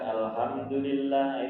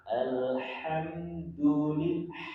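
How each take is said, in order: First: The h is a light, plain Indonesian sound. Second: The h is a strong, throaty Arabic sound. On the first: The speaker calls it wrong. "Bukan alhamdulillah, itu keliru kan?" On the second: The speaker calls it right.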